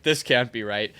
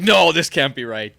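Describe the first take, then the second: First: Said in the usual way. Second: Louder, slow, baffled exclamation; bewildered old German guy protesting loudly; loud German dad. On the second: Retold or imitated. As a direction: boom it out, slowly, like a confused German dad. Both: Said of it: "in his German accent".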